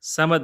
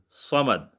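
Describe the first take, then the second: First: It begins with a light, plain s sound. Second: It begins with a heavy, emphatic s sound. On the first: The speaker calls it wrong. "समद नहीं है जी" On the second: The speaker calls it right. "ये सीन नहीं बल्कि सौद है"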